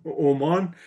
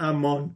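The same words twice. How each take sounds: First: "عمان" opening clearly on o; Omân, the corrected form. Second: "امان" opening on a instead of o; Amân, the rejected form. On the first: Panelist settling on the country's right name, "عمان" with an o. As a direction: say "عمان" as o-MÂN. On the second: Panelist correcting himself after the lesson, "امان" with an a. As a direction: say "امان" as a-MÂN. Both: Shown as a demonstration. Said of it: "نه امان، عمان".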